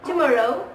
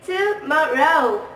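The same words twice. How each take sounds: First: The syllables flow together smoothly. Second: Each syllable is separated by a short pause.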